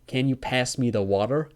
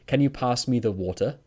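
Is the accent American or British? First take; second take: American; British. First: It is said in an American accent. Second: It is said in a British accent. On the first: "Americans say" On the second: "So in English, we would say"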